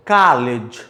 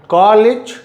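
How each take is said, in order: First: कॉलेज with an American open a, dropped low; teacher demos American कॉलेज as kaa-lij; American college. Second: कॉलेज with a British short o, raised; teacher demos British कॉलेज with a rounded o; British college. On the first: अमेरिकी उच्चारण, खुला आ. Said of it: "and there is आ". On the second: रोंदेड ओ वाला British उच्चारण. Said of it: "British अ sound". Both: Shown as a demonstration.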